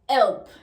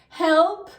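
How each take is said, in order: First: The word starts without an H sound. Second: The word starts with an H sound.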